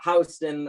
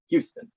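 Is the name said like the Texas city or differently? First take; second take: differently; Texas city. First: It is not said like the Texas city. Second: It is said like the Texas city. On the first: The speaker calls it right. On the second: The speaker calls it wrong.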